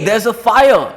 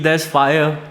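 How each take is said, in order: First: It is said in a loud, screaming voice. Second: It is said in a calm, casual voice. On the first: The danger is urgent. The speaker calls it right. "really scream at them" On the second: The danger is not urgent. The speaker calls it wrong. "Would you just say"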